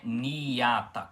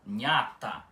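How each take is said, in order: First: The i after the n is long and separate. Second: The i is quick, blending into a palatal nh. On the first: The speaker calls it wrong. "não é niata com o i demorado" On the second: The speaker calls it right. "com o ni tem som de nh"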